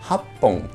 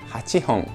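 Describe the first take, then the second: First: The syllables are contracted with a doubled consonant. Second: Every syllable is said in full, uncontracted. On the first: "y la otra es Happon" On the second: "una es Hachihon"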